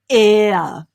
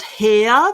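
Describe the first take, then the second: First: The word begins with a vowel sound. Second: The word begins with an h sound. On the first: The speaker calls it right. "It's just air, like air around us" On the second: The speaker calls it wrong. "It's definitely not hair. That's not how we pronounce it"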